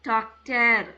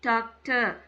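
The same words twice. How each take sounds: First: The final r sound is clearly pronounced. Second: The final r sound is left silent. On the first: The speaker calls it wrong. "அப்படி இப்போ அதுக்கு அந்த மாதிரி வரக்கூடாது" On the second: The speaker calls it right. "எண்ட்ல ஆர் வந்துச்சுன்னா ஆர் silent"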